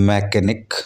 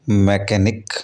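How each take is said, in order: The two takes are said the same way.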